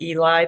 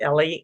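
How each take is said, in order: First: The name is said with an English pronunciation. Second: The name is said with a Hebrew pronunciation. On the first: "in English, we would pronounce it" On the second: "They say it"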